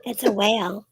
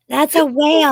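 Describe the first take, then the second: First: Said in the usual way. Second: Loud, high whale moan; whale call. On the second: Shown as a demonstration. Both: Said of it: "Thanks for the demonstration".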